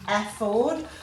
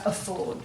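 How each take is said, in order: First: The first vowel is pronounced fully and carefully. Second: The first vowel is reduced to a grunted schwa. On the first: The speaker calls it right. "rather than saying" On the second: The speaker calls it wrong. "we tend to go"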